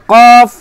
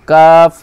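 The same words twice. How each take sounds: First: কফ louder and higher from the tongue root; heavy qaf. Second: কাফ lower and lighter from mid tongue; light kaf. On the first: (ভারী জোরালো কফ) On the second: (হালকা কাফ) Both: Shown as a demonstration. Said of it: "এটা হচ্ছে কফ আর এটা হচ্ছে কাফ".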